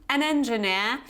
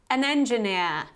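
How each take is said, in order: No difference in how they are said.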